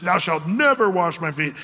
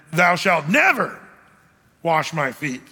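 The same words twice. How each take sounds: First: Said in the usual way. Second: Slow down and punch "never", pause, then drop for the rest; stress on never. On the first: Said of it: "it's more emphatic than just". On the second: Acted. Peter refusing to let Jesus wash him, heavy stress on "never". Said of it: "the reason I emphasize the never".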